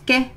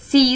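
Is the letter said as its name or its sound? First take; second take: sound; name. First: Only the letter's short sound is said. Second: The letter is said by its full name. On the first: "في المقطع الثاني بايه؟ بصوته" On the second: "يبقى اتنطق في المقطع الاول باسمه"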